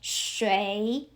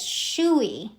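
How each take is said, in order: First: The vowel has an ay sound, like 'way'. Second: The vowel glides straight from oo to ee. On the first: The speaker calls it right. "I see U I as U E I" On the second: The speaker calls it wrong. "technically, I will pronounce it as shui"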